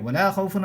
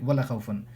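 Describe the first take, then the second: First: The vowel after the L is stretched. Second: The vowel after the L is short. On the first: The speaker calls it right. "You will have to stretch it" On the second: The speaker calls it wrong. "never pronounce it like"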